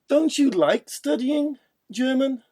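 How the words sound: It sounds like checking a fact. The speaker wants to confirm information. "let's confirm information"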